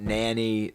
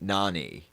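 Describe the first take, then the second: First: The name sounds like the word nanny. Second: The name sounds unlike the word nanny. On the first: The speaker calls it wrong. "not nanny" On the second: The speaker calls it right. "Nani like amaze"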